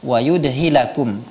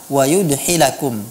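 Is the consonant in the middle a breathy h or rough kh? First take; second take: h; h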